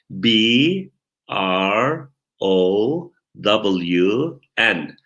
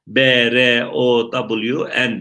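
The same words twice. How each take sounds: First: English letters, slowly, one at a time; spelling out. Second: B and R as Turkish "be, re", run together; spelled the Turkish way. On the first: Teacher spells a surname for students, slow letter-by-letter spelling. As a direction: leave a long gap after each letter. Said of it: "Bakın, heceliyorum". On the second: Teacher shows the contrast, B R said as Turkish "be, re". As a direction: spell B R O W N starting "be, re". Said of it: "Halbuki Türkçe hecelesek nasıl olacak". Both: Shown as a demonstration.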